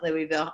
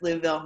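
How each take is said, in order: First: It uses an outsider's pronunciation of the city. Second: It uses the local pronunciation of the city. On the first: The speaker calls it wrong. "not Louisville. I did exactly the Jersey thing" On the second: The speaker calls it right. "I know it's Louisville"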